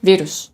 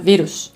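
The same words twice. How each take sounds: First: The stress is on the first syllable. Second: The same.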